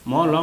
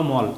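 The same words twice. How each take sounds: First: ম and ল held apart as two letters. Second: মল said as one closed syllable; read joined. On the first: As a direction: sound out ম, then ল. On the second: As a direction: blend the two letters into মল. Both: Shown as a demonstration. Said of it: "একসঙ্গে উচ্চারণ করেছি".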